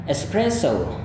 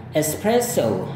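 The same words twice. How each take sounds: First: Espresso ending in a plain o, American English. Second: Espresso ending in an ou glide, British English. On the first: Teacher demonstrates American espresso for comparison. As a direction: model American espresso with a pure o. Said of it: "gaya Amerika". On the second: Teacher demonstrates British espresso for comparison. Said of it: "itu gaya British". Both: Shown as a demonstration.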